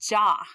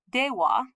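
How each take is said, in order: First: It is said fast, merged into one syllable. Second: It is said slowly as two full syllables.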